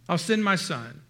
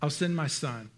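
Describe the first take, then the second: First: "my" pressed and falling, the rest level; stress on my. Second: "send" leaned on, said soft and falling; stress on send. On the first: Father insisting it is his own son, stress on "my". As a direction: lift the word "my" above the others. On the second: Father deciding to send his son, stress on "send". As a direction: weigh down the word "send". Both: Retold or imitated. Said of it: "And so the father said".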